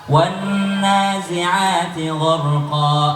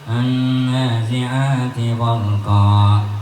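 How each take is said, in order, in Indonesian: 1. Dibaca dengan suara terbuka dari mulut. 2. Dibaca dengan suara yang sangat sengau. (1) "Buka mulutmu nak" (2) "Tadi Zahra tuh masih ... Hidung sengo-sengoy"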